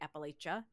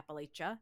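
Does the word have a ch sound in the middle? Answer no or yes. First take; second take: yes; yes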